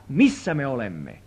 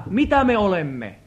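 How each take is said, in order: First: Slow, lower line with weight on "missä"; "missä" drawn out in a low, falling correction; stress on missä. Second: "mitä" picked out as the rejected half of a contrast; emphatic "mitä", pitch falling away after it; stress on mitä. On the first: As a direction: land deliberately on "missä" as the answer. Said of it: "vaan se on sitä". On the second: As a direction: lean on "mitä", setting up the correction. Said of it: "vanhurskautus ei ole sitä". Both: Real, not acted.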